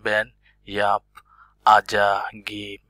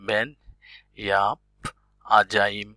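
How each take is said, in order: First: A clear g sound is heard before the end. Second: No g sound is heard before the end. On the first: "যারা নতুন আছেন তারা হয়তো বলবেন" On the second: "এখন তো জানা হয়ে যাচ্ছে"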